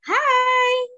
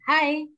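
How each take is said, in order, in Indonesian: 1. Diucapkan dengan cara senang dan ceria. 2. Diucapkan dengan cara datar, tanpa ekspresi. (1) "kalau kita pakai ekspresi bahagia" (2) "kita ekspresinya datar. Hai, datar saja"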